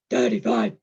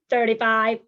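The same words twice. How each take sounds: First: It is said in a deep, growling monster voice. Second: It is said in a flat, mechanical robot voice. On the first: "Monster voice" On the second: "We're going to start with robot voice"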